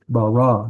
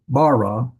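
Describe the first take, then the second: First: The stress is on the last syllable. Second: The stress is on the first syllable. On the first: The speaker calls it right. "the accent mark on that last syllable" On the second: The speaker calls it wrong.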